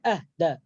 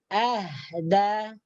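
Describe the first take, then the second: First: The h sound is pressed and held back. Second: The h sound flows out with audible breath. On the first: The speaker calls it wrong. "Jadi bukan ... Jangan ditekan dalam mulut kemudian tidak dikeluarkan" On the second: The speaker calls it right. "Dalam keadaan sukun. ... suara kita akan mengalir"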